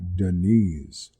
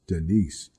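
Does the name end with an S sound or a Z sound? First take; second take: Z sound; S sound. First: The name ends with a Z sound. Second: The name ends with an S sound. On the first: This is how she says her own name. "she said it like Denise, with a Z sound at the end" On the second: This is the usual way the name is said. "most of the time I knew it as Denise"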